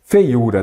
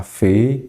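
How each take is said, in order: First: Said in the usual way. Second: "Feiura" split into syllables with gaps between; "Feiura" slowly, each syllable standing alone. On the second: Shown as a demonstration. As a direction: break "Feiura" apart to show its syllables. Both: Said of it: "Quando separa a palavra em sílaba".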